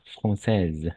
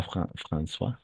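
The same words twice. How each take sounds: First: Française with an eh vowel and final z sound; correct pronunciation. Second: Française misread as François, ending in a swa sound; wrong word form. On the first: Teacher giving the student the right form, careful pronunciation. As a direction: say française clearly, final e silent. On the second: Teacher quoting the student's misreading, mistaken pronunciation. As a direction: softly echo the mistake François, ending on an open vowel. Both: Shown as a demonstration. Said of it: "Pas Fran-, François".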